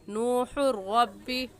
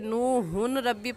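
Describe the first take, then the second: First: The 'n' merges into the following 'r'. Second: The 'n' is clearly pronounced before 'rabbi'. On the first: The speaker calls it right. "और सही कैसे है" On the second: The speaker calls it wrong. "इसे नूहुन रब्बी पढ़ना गलत है"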